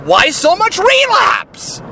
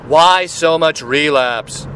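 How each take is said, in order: First: The question is asked in a frustrated tone. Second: The question is asked in a calm tone. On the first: "like you're frustrated with whoever" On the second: "that's one energy"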